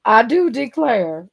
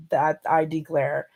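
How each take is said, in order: First: Put-on slow, drawn-out Southern belle accent; a lightly played Southern belle, stretched out. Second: Said in the usual way. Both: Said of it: "I just turned into a Southern belle".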